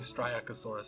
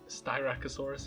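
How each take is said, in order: First: The word begins with an added r sound. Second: The word begins without an added r sound. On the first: This is a misreading learned long ago. The speaker calls it wrong. "I keep saying Striacosaurus. I misread it once" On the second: This is the proper name of the dinosaur. The speaker calls it right. "So Styracosaurus"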